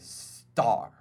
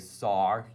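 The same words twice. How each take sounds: First: The t sound is crisp and clearly articulated. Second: The t sound is soft and unclear. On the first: The speaker calls it right. "you say star. Because that T creates the diction" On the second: The speaker calls it wrong. "You don't say star"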